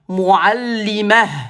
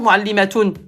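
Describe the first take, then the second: First: The word ends clipped in -ah, no vowel. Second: The word ends with a full -atun ending. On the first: The speaker calls it right. "Quand on s'arrête, ... on s'arrête toujours par soukoun" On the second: The speaker calls it wrong. "On va pas dire muallimatoun, point. Non"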